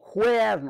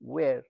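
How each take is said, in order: First: It starts with an h sound: 'hoyar'. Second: It starts with a w sound: 'wair'. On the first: The speaker calls it wrong. "হোয়ার নয়" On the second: The speaker calls it right.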